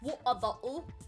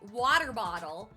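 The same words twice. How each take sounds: First: It is said in a British accent. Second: It is said in an American accent.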